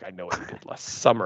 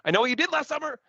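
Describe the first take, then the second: First: It is said flatly and quietly, sounding creepier. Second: It is said loudly and emphatically, like an exclamation.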